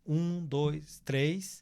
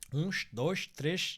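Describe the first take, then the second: First: Final s sounds are plain hissing s sounds. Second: Final s sounds are 'sh', Rio de Janeiro style.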